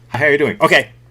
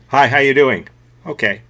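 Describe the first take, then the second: First: The reply comes very quickly. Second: The reply comes at a normal pace.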